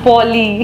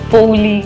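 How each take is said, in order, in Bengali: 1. প্রথম দলটি একটি সাধারণ 'o' স্বরধ্বনি। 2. প্রথম দলটি একটি gliding 'ou' স্বরধ্বনি। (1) "it's not পৌলি or পলি" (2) "এক একজন এক এক রকম ভাবে করতো"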